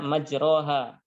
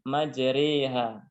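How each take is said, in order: First: The vowel after r is an open a. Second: The vowel after r is tilted toward e. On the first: "aslinya majroha" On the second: "dibaca dengan imalah atau miring, maka menjadi majriha"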